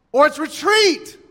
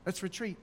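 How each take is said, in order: First: Retreat called higher and louder. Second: Retreat said much softer. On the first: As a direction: call retreat like a bugle blast. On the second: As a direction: let retreat fade away quietly. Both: Shown as a demonstration. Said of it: "How do we know if it's".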